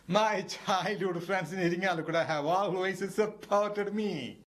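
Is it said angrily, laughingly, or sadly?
laughingly. It is said while laughing, amused.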